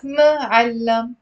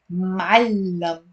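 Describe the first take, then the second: First: "ma'allam" broken after a separate first "ma"; wrong syllable split. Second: "ma'allam" with m run straight into the throat sound; drawn-out "ma'allam" in two beats, long double l; correct two syllables. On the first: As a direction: say "ma'allam" with an extra syllable, ma-'al-lam. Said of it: "It's not ma'allam". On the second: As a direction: say "ma'allam" slowly as m'al-lam, holding the l. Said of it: "It's two syllables". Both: Shown as a demonstration.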